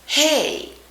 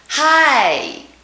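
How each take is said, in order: First: The word is said in a general accent. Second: The word is said in a Texan accent. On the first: "Watch what I do when I speak like everyone else" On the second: "Watch what I do with my mouth when I make the Texas version"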